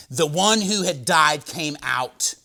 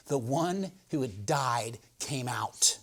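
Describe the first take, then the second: First: Said in the usual way. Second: Whispered slow. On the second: Shown as a demonstration. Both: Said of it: "repeated whispered".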